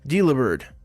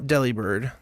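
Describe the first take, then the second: First: The first part sounds like the word 'delivery'. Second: The first part does not sound like 'delivery'. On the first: The speaker calls it right. "That's technically how it's supposed to be pronounced. ... like a delivery bird" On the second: The speaker calls it wrong. "Not Delibird, like I have been pronouncing it"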